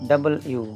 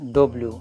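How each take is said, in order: First: It sounds like a full 'double-you'. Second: It sounds like a clipped 'dub-lyu'. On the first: The speaker calls it right. "সঠিক উচ্চারণ হবে ডাবল ইউ" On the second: The speaker calls it wrong. "এটার উচ্চারণ করি আমরা ডব্লিউ"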